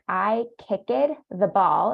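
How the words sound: The ending is said as a Spanish speaker would. The speaker calls it wrong. "Spanish speakers say something like"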